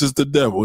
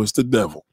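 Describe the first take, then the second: First: Said in the usual way. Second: "It's the devil." dropped lower and softer; grave repeat. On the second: Real, not acted. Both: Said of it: "No, no, I'm serious".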